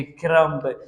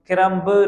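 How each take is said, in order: First: क्रम्ब said as "krum", ending on m; silent b. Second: क्रम्ब with an audible final "buh"; wrong pronunciation demo. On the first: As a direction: drop the b at the end of क्रम्ब. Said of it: "बी silent है". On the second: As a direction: sound out the b at the end of क्रम्ब. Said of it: "नहीं होता". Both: Shown as a demonstration.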